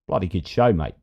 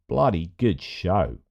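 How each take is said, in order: First: Light mock Australian accent, "Bloody good show" said at an easy pace; a casual Aussie "Bloody good show, mate". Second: Mock Australian accent, "Bloody good show" drawn out slowly with stress on "bloody". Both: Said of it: "those accents I get in trouble for".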